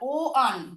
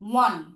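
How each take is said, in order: First: It begins with an 'o' vowel, then 'an'. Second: It begins with a 'w' sound, like 'wan'. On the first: The speaker calls it wrong. "আমরা কিন্তু বলছি না ও আন" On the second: The speaker calls it right. "আমরা বলছি ওয়ান"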